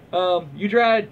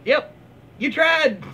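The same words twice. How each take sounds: First: Said in the usual way. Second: Higher, louder teasing repeat; sing-song higher take; mock consolation. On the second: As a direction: pat them on the head, mockingly. Mocking repeat of the comment.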